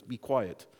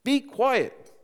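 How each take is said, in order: First: Said in the usual way. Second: High, firm command from scripture; stern. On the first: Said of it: "the first type of thing is". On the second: A narrator's reading. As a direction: order it sternly, with force. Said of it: "said Jesus sternly".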